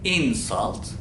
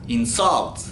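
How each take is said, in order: First: The stress is on the first syllable. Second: The stress is on the second syllable. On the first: It is a noun. "Noun olarak insult" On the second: It is a verb. "verb olaraksa insult şeklinde"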